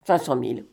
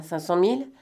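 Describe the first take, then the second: First: CINQ CENT MILLE as a settled statement, lower and falling; "Cinq cent mille" dropped low, no question in it; falling confirmation. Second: CINQ CENT MILLE as a question, rising on MILLE; "Cinq cent mille" checked with an upturned ending; questioning rise. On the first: Confirms the price named. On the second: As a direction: ask "Cinq cent mille" with the last word lifting. Asks the price on the phone. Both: Acted.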